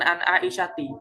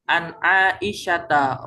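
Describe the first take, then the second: First: The name ends with an 'i' vowel. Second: The name ends with an 'a' vowel. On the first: The speaker calls it wrong. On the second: The speaker calls it right. "harokatnya fathah"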